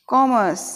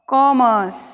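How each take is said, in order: No difference in how they are said.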